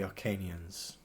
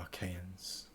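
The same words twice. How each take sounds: First: The word sounds like 'Arcanians'. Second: The word sounds like 'Achaeans'. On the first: The speaker calls it wrong. "I think I just said Arcanians" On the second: The speaker calls it right. "it's actually Archaeans"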